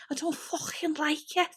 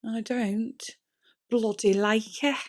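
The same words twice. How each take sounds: First: Put-on higher, jokey Scouse accent on "I don't fucking like it". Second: Said in the usual way. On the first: To viewers, annoyed at tangled hair, in a Scouse accent. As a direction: slip into a Liverpool Scouse accent, half joking. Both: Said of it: "I don't know why I turned into a scouse".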